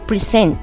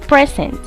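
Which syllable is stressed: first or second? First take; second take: second; first. First: The stress is on the second syllable. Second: The stress is on the first syllable. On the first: It is used as a verb. "now as a verb it is present" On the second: It is used as a noun. "Before it was present"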